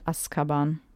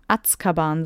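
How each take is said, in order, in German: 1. Der Laut vor dem k ist 's'. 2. Der Laut vor dem k ist 'ts'. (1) "statt Azkaban" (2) "wenn es mit Z geschrieben würde, im Deutschen, würde man doch Azkaban sagen"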